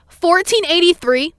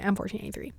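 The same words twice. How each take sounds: First: High, drawn-out mock yell; high, loud retold scream; imitated scream. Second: Said in the usual way. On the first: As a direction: call out the number like an irate cashier. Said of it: "she screams and goes". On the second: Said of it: "This is me, by the way".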